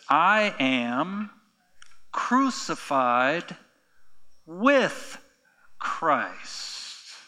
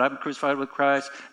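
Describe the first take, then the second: First: It is said slowly and deliberately. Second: It is rattled off quickly.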